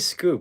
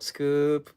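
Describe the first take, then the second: First: The voice does not rise at the end. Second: The voice rises at the end.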